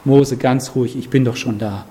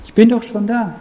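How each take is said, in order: First: Calm reassurance. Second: The same line again, higher and firmer, stress on bin; emphatic repeat. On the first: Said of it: "Und der Herr sagt". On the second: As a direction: insist with a lifted "bin". Wiederholung als Nachdruck. (nachdrücklich wiederholt, höher, Betonung auf "bin") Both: Retold or imitated.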